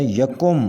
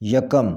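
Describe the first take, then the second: First: یکم with u in the second syllable: ya-kum; correct pronunciation. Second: یکم with a in both syllables: ya-kam; wrong pronunciation. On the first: (یکم کا صحیح تلفظ، "یَکُم") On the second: (یکم کا غلط تلفظ، "یَکَم") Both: Shown as a demonstration. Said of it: "صحیح تلفظ ہے".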